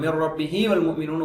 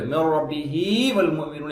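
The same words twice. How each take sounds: First: The 'hi' sound is short. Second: The 'hi' sound is held long. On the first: The speaker calls it wrong. "ஓதுறது தப்பு" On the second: The speaker calls it right. "ஹி என்பது இரண்டு அரக்காக நீட்ட பண்ணும்"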